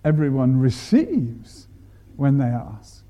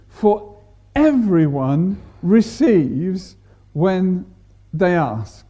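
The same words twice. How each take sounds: First: Emphasis demo on "receives"; stress on receives. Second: Slow, leaning hard on "everyone"; emphasis demo on "everyone"; stress on everyone. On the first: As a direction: drop the voice and press "receives". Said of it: "Or you could say". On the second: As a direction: draw out "For everyone receives" with weight on "everyone". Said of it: "we can put the emphasis". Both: Shown as a demonstration.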